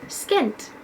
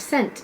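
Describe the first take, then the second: First: The word begins with an 'sk' sound. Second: The word begins with a plain 's' sound. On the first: The speaker calls it wrong. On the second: The speaker calls it right.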